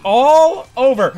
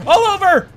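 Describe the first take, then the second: First: Said in the usual way. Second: Pitched up, punchy; excited. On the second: Real, not acted. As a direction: sell the pun loudly. Pun punchline.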